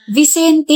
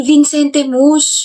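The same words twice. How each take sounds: First: Vicente said vi-SEN-te, with no n before the c; correct Vicente. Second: Vincente Mus dragged out slowly and mockingly, with an extra n, vin-SEN-te; slowly mock the wrong name Vincente Mus. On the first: Shown as a demonstration. (tamang bigkas ng Vicente, vi-SEN-te) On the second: (mabagal na panggagaya sa maling Vincente Mus) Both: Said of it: "hindi Vincente Mus".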